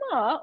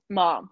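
First: The pitch moves during the word. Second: The pitch stays level throughout the word. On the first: It means horse. "if you say it in like ma" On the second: It means mother. "if you say it in a constant note"

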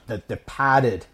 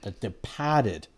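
First: It is said in a Boston accent. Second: It is said in the speaker's ordinary accent.

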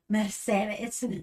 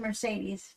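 First: The word is said with a Spanish accent. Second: The word is said with an English accent.

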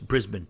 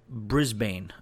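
First: The name is said in the local way. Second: The name is said in a non-local way. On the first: The speaker calls it right. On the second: The speaker calls it wrong.

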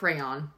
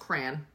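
First: The word is split into more syllables. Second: The word is squeezed into fewer syllables. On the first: The speaker calls it wrong. "you're splitting it into so many syllables" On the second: The speaker calls it right. "It's pronounced crayon"

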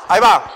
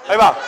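The two takes are said the same way.

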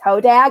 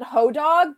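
First: The second syllable sounds like 'dag'. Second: The second syllable sounds like 'dog'. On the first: The speaker calls it right. "you're pronouncing it wrong. It's Hodag" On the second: The speaker calls it wrong. "I always pronounce it Hodog"

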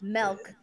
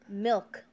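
First: The vowel sounds like the e in 'bet'. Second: The vowel sounds like the i in 'bit'. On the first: The speaker calls it wrong. "not milk. There's no E in milk" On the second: The speaker calls it right. "No, it's milk"

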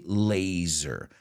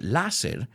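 First: It is said with English vowels and a buzzing z. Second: It is said with Spanish vowels and a hissed s. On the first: The speaker calls it right. "We say laser. Zzz" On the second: The speaker calls it wrong. "we don't pronounce it láser"

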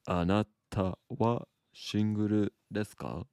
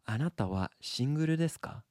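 First: It is said slowly. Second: It is said at normal speed.

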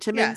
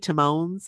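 First: The name has a short middle vowel, like 'lemons'. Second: The name has a long middle vowel, like 'Timon'. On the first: The speaker calls it right. "Is that how you say it?" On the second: The speaker calls it wrong. "like Timon and Pumbaa"

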